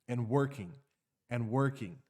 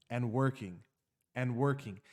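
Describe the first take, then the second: No difference in how they are said.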